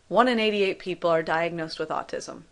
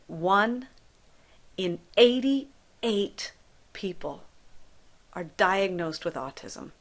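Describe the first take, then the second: First: It is said plainly, without added pauses. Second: It is said with heavy stress and pauses.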